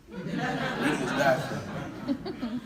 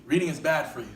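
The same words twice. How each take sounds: First: Slow, teasing drawl on reading is bad for you; drawn-out slow repeat. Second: Said in the usual way. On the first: Shown as a demonstration. Preacher teases the congregation, slow laughing drawl. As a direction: stretch every word slowly with a laugh in it.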